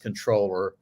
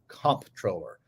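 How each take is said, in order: First: The word is said without any 'p' sound. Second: The word is said with a clear 'p' sound. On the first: It is the correct pronunciation. "the correct pronunciation is controller" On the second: It matches how the word is spelled on screen. "I would say it and enunciate that, in part because the word is up there on the T V screen, C O M P"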